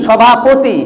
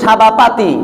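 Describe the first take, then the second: First: The third vowel is a short 'o' sound. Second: The third vowel is a long 'a' sound. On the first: The word keeps its original form. The speaker calls it right. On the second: The word has been distorted from its original form. The speaker calls it wrong.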